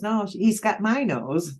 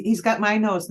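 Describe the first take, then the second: First: Slow correction with "my" stressed and rising; "my" pressed harder than "got". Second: Said in the usual way. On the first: Shown as a demonstration. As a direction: lean on "my" to fix the line.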